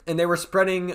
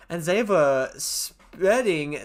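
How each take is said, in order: First: Said in the usual way. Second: Mock German accent on spreading; "spreading" said as "sppɛdɪng" in a German accent. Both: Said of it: "stop doing my German accent".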